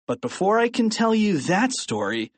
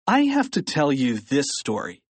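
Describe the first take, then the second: First: "that" lifted out for contrast; stress on THAT. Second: "this" picked out for contrast; stress on THIS. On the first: Narrator putting off one story, stress on "that". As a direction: lean on "that", setting it against another. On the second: Narrator turning to the present story, stress on "this". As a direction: land the emphasis on "this". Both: A narrator's reading.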